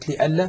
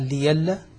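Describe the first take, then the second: First: The middle sound is a glottal stop. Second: The middle sound is a y sound. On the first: "أبدل ورش همزة لألا" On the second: "فقال ليلا"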